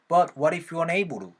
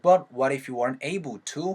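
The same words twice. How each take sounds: First: The t in able to is flapped. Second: The t in able to is crisp.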